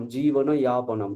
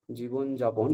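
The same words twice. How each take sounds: First: জীবন ইয়াপনম, the Sanskrit way; Sanskrit y sound. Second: যাপন said with a hard j, like "jaapon"; জীবন যাপন with the j of jar; Bengali j sound. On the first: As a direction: start ইয়াপনম with a gliding y, not a j. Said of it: "কিন্তু সংস্কৃতে ইয়াপনম". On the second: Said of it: "উচ্চারণ করছি বর্গীয় জ". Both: Shown as a demonstration.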